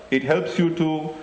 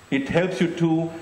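No difference in how they are said.

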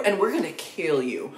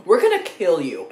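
First: Said in the usual way. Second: Louder, pressed mock menace; hammed-up threat, stressing gonna. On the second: Reviewer jokingly threatening the Pillsbury Doughboy, mock menace. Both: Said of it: "that is a threat".

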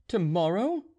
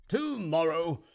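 First: Tomorrow? rising sharply at the end, a bit louder; disbelieving question. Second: Tomorrow, said flatly as a sure statement; casual answer. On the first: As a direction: ask Tomorrow? as an incredulous question, pitch up at the end. Gregory asks in disbelief. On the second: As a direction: toss back Tomorrow, as plain fact, no rise. Ivan answers confidently. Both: A narrator's reading.

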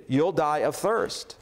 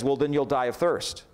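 First: Slow repeat. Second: Said in the usual way. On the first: A narrator's reading. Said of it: "the lion repeated". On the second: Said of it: "the lion says".

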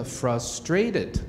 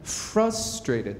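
First: "frustrated" with a flat "frus" vowel; quoting a mispronunciation. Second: "frustrated" with the stress on FRUS; stress on first syllable. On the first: Retold or imitated. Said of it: "这样的一个说法". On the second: Shown as a demonstration. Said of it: "来，我们来练习一下".

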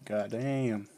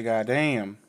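First: Said in the usual way. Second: "God damn." said louder, falling hard on damn. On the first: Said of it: "I say, "God damn". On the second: Shown as a demonstration. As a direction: punch "God damn." out loud. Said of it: "I say".

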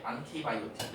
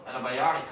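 First: "안티바이오틱" with hard, clear t's; every syllable of "안티바이오틱" sounded; rote full pronunciation. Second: "antibiotic" as "ena-bai-ari"; natural American reduced "antibiotic"; listening-test reduction. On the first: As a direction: Korean textbook-style "안티바이오틱". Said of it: "이렇게 외우면". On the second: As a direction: soften away the t's in "antibiotic". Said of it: "듣기에서 antibiotic 하고 나왔을 때". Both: Shown as a demonstration.

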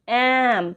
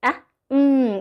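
First: "অ্যাম" as one drawn-out syllable; blended sounds. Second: Short "অ্যা", pause, then held hum "উম"; sounding out letters. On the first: Teacher joining A and M, smoothly blended. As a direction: run the vowel into M in "অ্যাম". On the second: Teacher showing two letter blending, sounds kept apart. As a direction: say "অ্যা" and "উম" as separate phonic sounds. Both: Shown as a demonstration. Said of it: "দুটো মিলে কেমন হচ্ছে".

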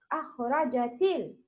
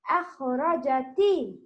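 First: أخرجت ال- said quickly with the الـ given its proper sound; teacher models the right الـ in أخرجت; right way shown. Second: الـ said as a plain lam; teacher demonstrates the wrong الـ in أخرجت; wrong way shown. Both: Shown as a demonstration. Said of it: "not تي".

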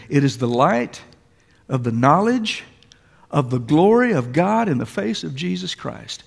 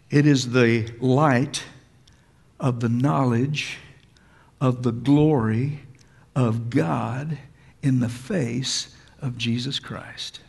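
First: Said in the usual way. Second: Slow, deliberate, each phrase set apart with pauses; said slowly. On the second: Shown as a demonstration. Preacher to congregation, slowly savouring each phrase. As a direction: let every word sink in slowly. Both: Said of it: "I want to say it slowly".

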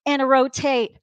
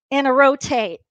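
The two takes are said the same way.

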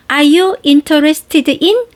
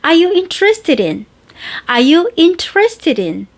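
First: Slow, clear, one word at a time. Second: Easy flowing "Are you interested in?"; relaxed, natural. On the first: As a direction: say "Are you interested in?" word by word, deliberately. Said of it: "이렇게 또박또박 하셔도 괜찮아요". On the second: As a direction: let it roll out comfortably. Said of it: "이렇게, 어, 편안하게 나와". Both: Shown as a demonstration.

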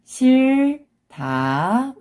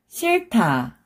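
First: 싫다 slow and high, split as 실, pause, 다; syllable by syllable. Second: 싫다 joined as 실타, aspirated t; read together. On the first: Teacher breaking a word down for learners, syllable by syllable. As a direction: stretch 싫다 into two separate syllables. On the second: Teacher shows how it reads together, linked pronunciation. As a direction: run 싫다 into one word with an airy 타. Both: Shown as a demonstration. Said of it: "When you read it together".

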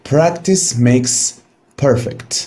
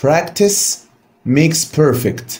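First: Slow model repetition; slow recited proverb. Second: Practice makes perfect, drawn out word by word; slow, deliberate teacher recitation; slow recited proverb. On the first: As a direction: repeat the proverb slowly for students to copy. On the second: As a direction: say the saying slowly and clearly for the class. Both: Shown as a demonstration. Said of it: "عندنا حكمة بتقول".

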